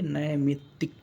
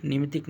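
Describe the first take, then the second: First: नैमित्तिक opening on "nai"; correct pronunciation. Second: निमित्तिक opening on short "ni"; mispronounced word. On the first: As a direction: say नैमित्तिक divided nai-mit-tik. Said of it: "क्या होना चाहिए?". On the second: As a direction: say निमित्तिक quickly with ni, not nai. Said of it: "निमित्तिक नहीं". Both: Shown as a demonstration.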